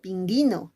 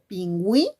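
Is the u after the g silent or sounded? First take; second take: silent; sounded. First: The u after the g is silent. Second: The u after the g is sounded. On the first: The speaker calls it wrong. "yo no digo pinguino" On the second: The speaker calls it right. "digo pingüí"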